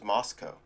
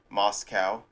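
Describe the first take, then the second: First: The last syllable does not rhyme with cow. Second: The last syllable rhymes with the word cow. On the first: This is how someone else says it. "but he goes" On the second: This is how the speaker always said it. "like cow, like moo, like a farm animal"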